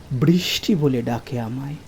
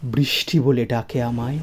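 The two takes are said the same way.

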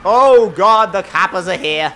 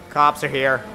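First: Loud British exclamation, falling back; bad British accent. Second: Said in the usual way. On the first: Driver spotting police behind him, hammed-up bad British accent. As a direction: attempt a horrible British accent on the coppers. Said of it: "attempted horrible British accent".

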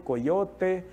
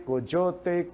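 First: Coyote with the y said as a plain y, ko-YO-te; y sound. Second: Coyote with the y said as dj, ko-DJO-te; dj sound. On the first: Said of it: "tem sons diferenciados". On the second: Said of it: "Podemos falar aí cochote". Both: Shown as a demonstration.

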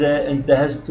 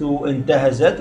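First: انتهزت ending in a voiced -tu; first-person ending. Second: انتهزت ending in a vowelless -at; feminine silent ending. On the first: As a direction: say انتهزت as intahaztu. Conjugation drill, first-person form. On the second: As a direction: say انتهزت as intahazat. Conjugation drill, feminine form. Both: Shown as a demonstration.

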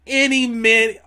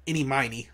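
First: "Any Mini" with Mini said as minnie; Mini pronunciation. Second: "Any Miney" with Miney said as my-nee; Miney pronunciation. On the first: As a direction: say "Any Mini", Mini rhyming with skinny. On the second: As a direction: say "Any Miney", Miney rhyming with tiny. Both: Shown as a demonstration. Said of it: "Or would it be Miney?".

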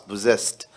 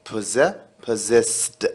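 First: Said in the usual way. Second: Possessed broken into syllables, very slow, first ss as z; careful pronunciation. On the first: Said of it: "خلي بالك في نطق كلمة possessed". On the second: Shown as a demonstration. Teacher to students, drilling possessed slowly syllable by syllable. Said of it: "وهنا ال اس اس تتنطق ز".

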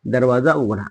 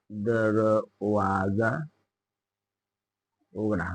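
First: Said in the usual way. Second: Very slow, soft, stretched syllables; slow dictation. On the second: Shown as a demonstration. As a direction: break दरवाजा into drawn-out syllables. Teacher repeats slowly for dictation. (अगदी सावकाश, हळू आवाजात)

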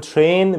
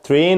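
First: "train" as "chrain"; correct American TR. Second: "train" as "te-rain"; wrong TR pronunciation. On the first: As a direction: say "train" with sh between t and r. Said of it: "بقول train". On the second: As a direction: say "train" with a separate t and r. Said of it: "مش بقول إن هي". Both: Shown as a demonstration.

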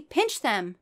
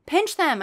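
First: Said in the usual way. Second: Loud, high shout. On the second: Acted. Narrator shouting to her family, loud. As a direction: yell the order to the family. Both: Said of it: "I shouted to my family".

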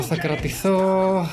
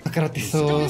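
First: Θα κρατηθώ said very slowly, each syllable held; self-calming drawn-out repeat; κρατηθώ drawn out slowly, pushed a bit higher. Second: Said in the usual way. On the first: Real, not acted. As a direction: stretch κρατηθώ out, trying to hold it together.

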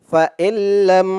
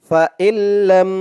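The two takes are said the same way.

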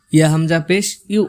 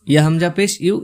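The two takes are said the same way.

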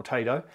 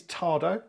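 First: "Tado" said TAY-doh, long A; pronounced TAY-do. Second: "Tado" said TAH-doh, open A; pronounced TAR-do. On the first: Vlogger adds the alternative name, "Tado" as TAY-doh. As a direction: say "Tado" with an "ay" as in day. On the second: Vlogger introduces the thermostat, "Tado" as TAR-doh. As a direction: say "Tado" with an "ah" as in car. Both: Shown as a demonstration. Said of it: "get the correct pronunciation".

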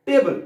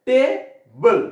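First: Said in the usual way. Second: টে, pause, বল; two separate loud beats on টেবল; split into two syllables. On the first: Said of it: "উচ্চারণ করার সময় আমরা কি করছি". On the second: Shown as a demonstration. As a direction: break টেবল into টে and a louder বল. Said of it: "কয় স্বরে উচ্চারণ করলাম".

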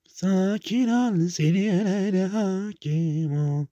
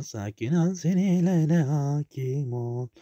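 First: Slow, drawn-out mock soothing; slowly reciting a calm-down mantra to himself. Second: Mock calm. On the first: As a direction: stretch each word like a calming guru. Calming mantra repeated. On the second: Calming himself mid-game.

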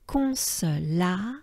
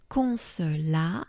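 Both takes have the same delivery.

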